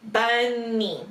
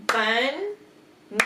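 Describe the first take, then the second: First: Said in the usual way. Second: "Bun-ni" in two held chunks, "bun", "nee"; split into syllables. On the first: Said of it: "listen very carefully to how many times I clap". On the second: Shown as a demonstration. Teacher clapping out the word, syllable by syllable. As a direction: clap out "Bun-ni" beat by beat. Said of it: "how many times I clap to the word".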